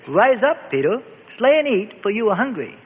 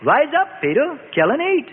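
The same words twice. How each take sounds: First: Raised, lightly voiced divine call; a hint of God's commanding voice; voice from heaven. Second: Commanding voice from heaven, more insistent; insistent heavenly voice. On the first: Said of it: "a voice came out of heaven". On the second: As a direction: press the order on Peter again. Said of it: "the voice out of heaven said the third time". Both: A narrator's reading.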